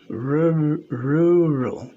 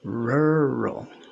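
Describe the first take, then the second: First: The first vowel is a pure rounded vowel. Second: The first vowel is strongly r-colored throughout. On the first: The speaker calls it wrong. "You are not saying that. That would be rural" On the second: The speaker calls it right. "You're saying rural"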